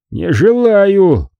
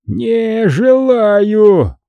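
First: Slow, higher stubborn drawl; drunken refusal. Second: Very slow, high drawn-out bellow; drunken roar. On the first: Monk refuses again. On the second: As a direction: stretch it out like a stubborn drunk. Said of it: "ревёт монах". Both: A narrator's reading.

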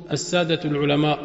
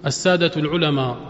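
First: العلماء said without the glottal stop; Levantine dropped hamza. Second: العلماء with no hamza at the end; Levantine dropped hamza. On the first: Teacher imitating the Levantine dropped hamza. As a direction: soften the hamza in العلماء away. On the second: Teacher repeating the Damascene way of saying it. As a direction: let العلماء end without a glottal stop. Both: Retold or imitated. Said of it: "ما بيحققوا الهمزة".

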